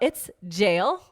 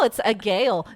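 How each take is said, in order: First: The word begins with a soft J sound. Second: The word begins with a hard G sound. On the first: The speaker calls it right. "No, it's jail" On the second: The speaker calls it wrong. "in my head, I was like, oh, it's a gale"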